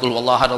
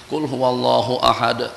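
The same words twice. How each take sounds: First: It is recited quickly with words run together. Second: It is recited slowly and clearly. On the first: The reciter is in a hurry to finish. The speaker calls it wrong. "perut dah lapar" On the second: The verses are kept distinct. The speaker calls it right. "bacalah dengan elok"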